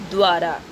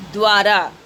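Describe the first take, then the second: First: Said in the usual way. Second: द्वारा said loudly with the joined द्व cluster stressed; emphatic word demo. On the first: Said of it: "शब्द क्या बना". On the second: Shown as a demonstration. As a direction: announce द्वारा firmly as dwaa-raa. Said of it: "तो होगा". (द्वारा को ज़ोर देकर, द्व को जोड़कर)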